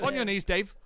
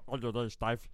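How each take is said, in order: First: It is said in a clear voice. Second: It is said with a muffled, full mouth.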